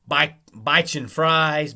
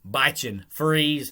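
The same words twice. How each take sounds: First: The second word is said like 'fries'. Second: The second word is not said like 'fries'. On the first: This is the speaker's own way of saying it. "that's how you say it" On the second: This is how many other people say it. "a lot of people say"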